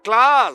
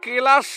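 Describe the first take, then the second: First: The k and l sounds run straight together. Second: A vowel is heard between k and l. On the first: It names a lesson. The speaker calls it right. "এটা ক্লাস" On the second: It names a crystal. The speaker calls it wrong. "ক্লাস না ক্লাস না"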